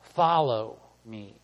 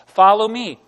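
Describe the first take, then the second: First: The word follow carries the emphasis. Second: The word me carries the emphasis. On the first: The focus is on the act of following. "What does that mean to follow" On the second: The focus is on whom to follow. "who's he saying to follow? Him"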